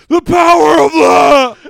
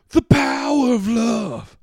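First: It is yelled in a smoky voice. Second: It is said in a plain voice.

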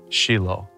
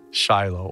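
First: The name is said the original Hebrew way. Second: The name is said the common English way.

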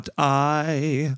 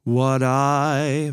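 First: The two words are said separately, not joined. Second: The two words are joined smoothly together. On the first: The speaker calls it wrong. "ולא what I" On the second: The speaker calls it right. "נקרא לזה לגאטו, למשל what I"

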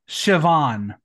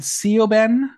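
First: The middle consonant is a V sound. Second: The middle consonant is a B sound. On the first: The speaker calls it right. "So the BH turns to a V" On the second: The speaker calls it wrong. "We had Sioban"

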